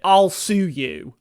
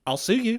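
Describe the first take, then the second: First: Loud, drawn-out mock threat; slow, hammed-up "I'll sue you"; mock legal threat. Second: Higher-pitched mock threat, lifting at the end; high, hammed-up "I'll sue you"; mock legal threat. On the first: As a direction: draw out each word loudly, savouring the threat. Voices Jackie threatening legal action. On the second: Repeats Jackie's threat differently.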